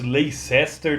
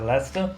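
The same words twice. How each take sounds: First: The name is read out the way it is spelled. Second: The name is said in its usual spoken form. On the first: This is how the name is written. "escreve-se Leicester" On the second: This is how the name is actually said. "mas a pronúncia é Leicester"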